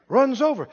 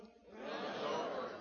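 First: Said in the usual way. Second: Breathy whisper, slow. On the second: Shown as a demonstration. Preacher whispering to the congregation. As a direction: breathe it out like a secret.

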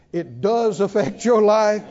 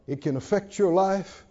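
First: Emphatic correction on does; stress on does. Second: Said in the usual way. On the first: Shown as a demonstration. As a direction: correct yourself with weight on "does". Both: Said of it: "I shouldn't say it can".

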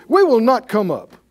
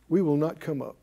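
First: Loud, defiant refusal. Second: Quiet echo. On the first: Rebels shouting their refusal at Moses, loud and defiant. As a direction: fling the refusal back at Moses. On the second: Preacher repeats the rebels' refusal. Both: Retold or imitated.

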